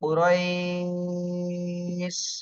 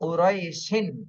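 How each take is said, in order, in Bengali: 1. শব্দটি দীর্ঘ স্বরের পরে 'sh' দিয়ে সাকিন হয়ে থামে। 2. শব্দটি শেষে যুক্ত 'in' ধ্বনি দিয়ে শেষ হয়। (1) "এখানে বলতে হবে উরইশ" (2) "এটা আর বলা যাবে না"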